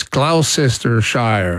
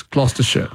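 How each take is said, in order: First: "Gloucestershire" slowly as GLOW-sess-ter-shire, rhyming with cow; American mispronunciation by spelling. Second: "Gloucestershire" shortened to GLOS-ter-shuh; British pronunciation of Gloucestershire. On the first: Retold or imitated. Host quoting an American asking, slow spelled-out Gloucestershire. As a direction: sound out every syllable of "Gloucestershire". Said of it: "I remember an American saying".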